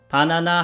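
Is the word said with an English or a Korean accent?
Korean. It is said flat, in Korean-style syllables. Listeners cannot understand it. The speaker calls it wrong. "바나나 하면 못 알아듣고"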